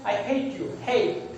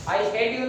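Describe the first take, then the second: First: Hate with a gliding ei vowel; correct diphthong. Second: Hate said with a flat short vowel; the mistaken hate; wrong vowel. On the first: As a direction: glide through hate. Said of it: "आप बोलेंगे". (hate को ए-ई glide से) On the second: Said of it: "नहीं बोलेंगे". (hate को छोटे स्वर से) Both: Shown as a demonstration.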